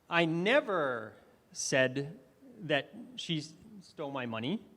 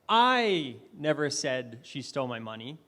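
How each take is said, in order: First: The word "never" carries the stress. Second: The word "I" carries the stress. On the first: It was never said at all. "that's not something I ever said" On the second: Someone else said it. "Maybe someone else said that, but I did not say that"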